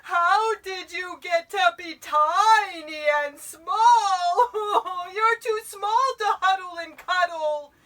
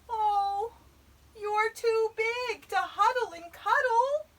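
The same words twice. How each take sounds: First: Loud, high, drawn-out tearful wail; bawling bear. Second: High, loud, dismayed little voice; little Eddie's dismay. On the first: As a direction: bawl it out like a sobbing giant bear. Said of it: "could hear the voice bawl". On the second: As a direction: wail it as small, disappointed Eddie. Eddie laments the bear's size. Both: A narrator's reading.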